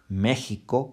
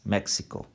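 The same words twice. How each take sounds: First: The x is said as a throaty h sound. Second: The x is said as a ks sound. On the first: This is how Spanish speakers say it. "Em espanhol, é México" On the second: This is how English speakers say it. "Em inglês"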